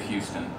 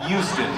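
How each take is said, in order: First: Said in the usual way. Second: "Houston" with the H dropped; local Houston pronunciation. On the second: Shown as a demonstration. Actor shows how locals say the city, "Houston" without its H. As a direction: say "Houston" as Yoo-ston, starting on a y sound. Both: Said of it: "as they say".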